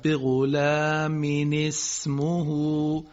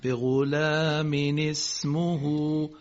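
First: بغلام اسمه drawn out very slowly, vowels stretched; teacher modelling the phrase for listeners; careful recitation. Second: بغلام اسمه repeated very slowly with clear vowels; careful recitation. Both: Shown as a demonstration. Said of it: "تأکید بکنیم رو این".

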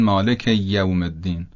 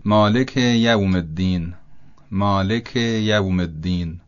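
First: یوم with a held double y, "maleki-yyawm"; long, stressed y joining مالک to یوم; doubled Y. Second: یوم with a short single y, "maliki yawm"; undoubled Y. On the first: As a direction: lean on the first sound of یوم, doubling it. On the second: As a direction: separate مالک from یوم, keeping the y light. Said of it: "تشدید پیدا نکنه". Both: Shown as a demonstration.

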